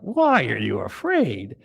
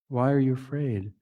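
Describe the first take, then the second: First: It is said in a harsh, scolding tone. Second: It is said in a gentle, reassuring tone.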